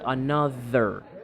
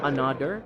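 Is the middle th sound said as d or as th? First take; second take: th; d. First: The middle sound is a voiced th. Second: The middle sound is a d. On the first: The speaker calls it right. "say another" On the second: The speaker calls it wrong. "not another; They replace the voice th... with a d"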